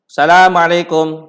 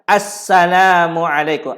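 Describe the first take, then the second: First: The word starts directly with the s sound. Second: The word starts with an a vowel sound. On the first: The speaker calls it wrong. "Tak boleh sebut salam" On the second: The speaker calls it right. "Kena baca Assalamualaikum"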